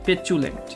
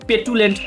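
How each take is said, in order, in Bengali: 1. দ্বিতীয় অংশটি 'ch' শব্দ দিয়ে শুরু হয়। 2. দ্বিতীয় অংশটি 't' শব্দ দিয়ে শুরু হয়। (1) "এটা কিন্তু চু উচ্চারণ হবে" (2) "আপনারা আবার পেটুলেন্ট করেন না"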